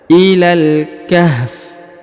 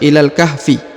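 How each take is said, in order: First: The last word ends on the consonant f. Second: The last word ends with a short i vowel. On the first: The reader stops here. "karena kita berhenti maka dibaca ilal kahf" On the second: The reader continues without stopping. "Kalau kita lanjut maka dibaca ilal kahfi"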